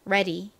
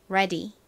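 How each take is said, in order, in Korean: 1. 미국식 모음으로 발음됩니다. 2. 미국식 모음으로 발음됩니다.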